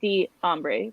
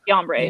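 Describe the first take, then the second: First: The D is set apart as its own beat. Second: The D runs straight into the following syllable. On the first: The speaker calls it right. "I like it better when it's Hugh D Ombre. Like it's two syllables" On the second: The speaker calls it wrong. "they didn't like emphasize the the E. It was just like Dombre"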